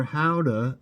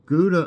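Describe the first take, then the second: First: Gouda said as HOW-duh; local Dutch pronunciation. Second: Said in the usual way. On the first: Shown as a demonstration. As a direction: start Gouda with an H, rhyming with chowder. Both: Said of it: "as locals say".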